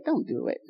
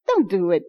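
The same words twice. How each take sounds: First: Inner voice. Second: Said in the usual way. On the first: Retold or imitated. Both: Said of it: "you feel something say".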